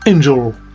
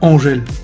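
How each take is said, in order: First: The name is said like the English word angel. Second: The name is said the French way, Angèle. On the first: It names the show's character. The speaker calls it right. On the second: It names the singer. The speaker calls it wrong.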